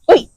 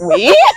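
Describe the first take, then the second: First: It is said plainly, without hesitation. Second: It is said with audible hesitation.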